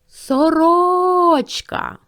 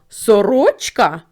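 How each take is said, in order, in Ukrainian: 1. Його викрикують голосно, як оклик. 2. Його перепитують з питальною інтонацією. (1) "Прокричим це слово" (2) "Або перепитаємо"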